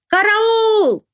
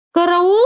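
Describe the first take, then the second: First: High drawn-out cry, falling firmly at the end; frightened, emphatic cry. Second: High frightened cry rising into a question; weak, frightened question. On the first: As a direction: cry for help as a definite statement. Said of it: "закричала уже не с вопросом, а совершенно утвердительно". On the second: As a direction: call for help as if unsure, pitch climbing. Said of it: "слабым и испуганным голосом". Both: A narrator's reading.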